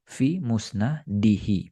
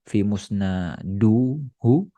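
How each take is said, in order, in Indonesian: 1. Vokal kasus setelah musnad adalah i. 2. Vokal kasus setelah musnad adalah u. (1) "ya berarti kasroh" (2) "Bukan kita baca"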